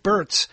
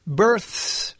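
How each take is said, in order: First: Births said like "berts", a T for the th; quick "births" with the th hardened to t; mispronounced births. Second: Births with a drawn-out soft th before the s; "births" said slowly, ending in th-s; careful TH in births. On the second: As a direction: stretch the th in "births". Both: Shown as a demonstration. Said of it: "not births".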